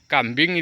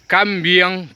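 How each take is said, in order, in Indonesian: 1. Kata ini berakhir dengan bunyi ing biasa. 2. Kata ini berakhir dengan bunyi iang. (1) "Kambing dibaca kambiang" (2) "dibaca kambiang"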